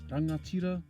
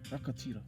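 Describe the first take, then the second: First: The middle consonant is an ng sound. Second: The middle consonant is a k sound. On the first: This is the usual pronunciation. "you can hear the ng sound in there" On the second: This is how some southern tribes say it. "change the ng sound to k"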